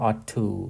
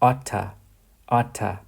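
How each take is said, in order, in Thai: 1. 'to' ออกเสียงเต็มและชัดเจน 2. 'to' ลดเหลือเสียง t สั้นๆ (1) "เราจะออกเสียงแบบตรงๆก็ได้ว่า" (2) "คำนี้อ่านว่า"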